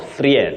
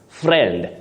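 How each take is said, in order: First: The i vowel is pronounced. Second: The i vowel is not pronounced. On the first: The speaker calls it wrong. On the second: The speaker calls it right. "That I is silent"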